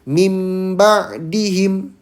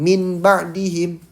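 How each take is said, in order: First: The sound before ba is an m. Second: The sound before ba is an n. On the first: The speaker calls it right. "Jadi dibacanya mim ba dihim" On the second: The speaker calls it wrong. "bukan min ba dihim"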